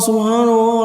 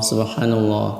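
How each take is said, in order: First: It is said loudly and high. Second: It is said softly and quietly.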